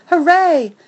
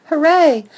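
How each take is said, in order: First: High, loud cheer; overjoyed dog cheering; excited cheer. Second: High, loud cheer repeated; overjoyed dog cheering; excited cheer. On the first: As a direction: shout for joy. Dog thrilled at dog park. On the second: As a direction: cheer again, just as thrilled. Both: A narrator's reading.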